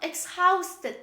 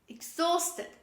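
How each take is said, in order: First: The H sound is pronounced after the x. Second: The H sound is silent after the x. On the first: The speaker calls it wrong. "It's not exhausted. Don't say exhausted" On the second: The speaker calls it right. "This is exhausted"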